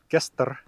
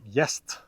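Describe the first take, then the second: First: The word begins with a hard g sound. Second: The word begins with a y sound. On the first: This is the older Norse pronunciation. "not gester" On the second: This is the later palatalized pronunciation. "but jest"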